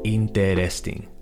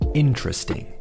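First: The word is said with four syllables. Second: The word is said with three syllables. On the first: The speaker calls it wrong. "Cuatro sílabas. No, that's not really it" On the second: The speaker calls it right. "What we need to do is ignore that first E"

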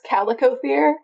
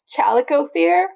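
First: The word begins with a 'k' sound. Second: The word begins with a 'ch' sound. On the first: "If it's not" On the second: "If it is"

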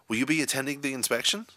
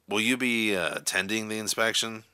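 First: The question is asked in an excited tone. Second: The question is asked in an angry tone. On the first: "in an excited tone of voice" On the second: "in an angry, irritated tone of voice"

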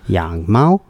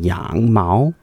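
First: The tones follow the standard pitch pattern. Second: The tones are off from the standard pitch. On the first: The speaker calls it right. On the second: The speaker calls it wrong.

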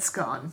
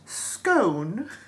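First: The word is said the Scottish way. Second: The word is said the American way. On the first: "I just said scone, because that's what we called them in my family" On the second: "in America it's pronounced scone"

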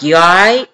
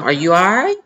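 First: It sounds rude, with attitude. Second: It sounds friendly and caring.

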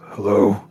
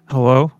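First: It is said in a very low voice. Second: It is said in a normal-pitched voice.

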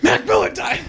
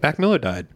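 First: It is said with shocked surprise. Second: It is said calmly, as flat news.

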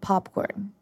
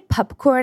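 First: The first syllable sounds like pop. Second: The first syllable sounds like pup. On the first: "instead of popcorn" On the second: "how I say popcorn"

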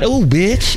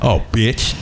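First: The tone is light and friendly. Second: The tone is deep and hostile. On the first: It is affectionate, not an insult. The speaker calls it right. "But, oh, bitch" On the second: It is meant as an insult. The speaker calls it wrong. "not a bitch like"

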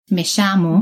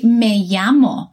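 First: The double L sounds like sh. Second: The double L sounds like y.

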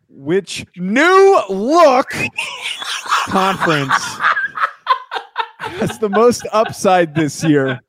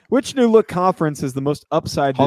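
First: It is read with loud emphasis on some words. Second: It is read plainly, without extra emphasis. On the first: The speaker calls it right. "read it in the tone that Nick has obviously put it in" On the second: The speaker calls it wrong. "You read that wrong"

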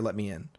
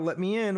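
First: It is said in a plain, matter-of-fact way. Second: It is said in a teasing, joking way. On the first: The speaker seems genuinely entitled to enter. "It sounds like, I'm allowed to be here, let me in" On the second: The speaker is hinting they are playing a role. "it doesn't sound like, haha, let me in, wink, wink"

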